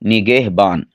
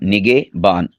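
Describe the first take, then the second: First: The middle h sound is clearly pronounced. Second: The middle h sound is dropped. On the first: The speaker calls it right. "यानी हा को भी ज़ाहिर कर, करना है" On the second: The speaker calls it wrong. "ये गलत है"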